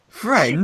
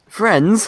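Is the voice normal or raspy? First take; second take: raspy; normal. First: It is said in a rough, raspy voice. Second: It is said in an ordinary, clear voice. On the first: The speaker calls it right. "you don't have to say it in like a raspy voice" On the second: The speaker calls it wrong. "if I say it in my normal voice"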